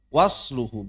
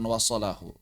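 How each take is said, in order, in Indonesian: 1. Bunyi s langsung diikuti l. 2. Bunyi a ada di antara s dan l.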